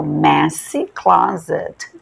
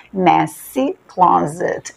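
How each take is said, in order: First: Slow messy said like the player Messi; messy closet, messy like Messi. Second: Very slow Messy, said like the player's name; like Messi. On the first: Teacher comparing messy to the footballer's name. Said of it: "Lembra do Messi". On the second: Teacher repeating messy closet slowly for students. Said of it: "igual da do jogador". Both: Shown as a demonstration.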